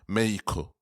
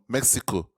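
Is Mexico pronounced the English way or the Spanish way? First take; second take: Spanish; English. First: The name is pronounced the Spanish way. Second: The name is pronounced the English way. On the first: The speaker calls it right. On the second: The speaker calls it wrong.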